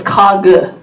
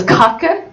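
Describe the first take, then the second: First: Kage with the middle K softened to a G; southern Norwegian kage. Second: Kake said with a hard K in the middle, Norwegian style. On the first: Teaching how southern Norwegians say cake, kage. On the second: Showing a class the standard Norwegian word for cake, kake. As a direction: say kake the standard way, KAH-keh. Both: Shown as a demonstration. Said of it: "So the K's are into G's".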